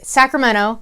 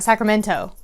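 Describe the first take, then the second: First: The T sound is dropped from the word. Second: The T sound is clearly pronounced. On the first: The speaker is from the area. The speaker calls it right. "So I say it's Sacramento, like L M N O P" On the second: The speaker is not from the area. The speaker calls it wrong. "It's not Sacramento"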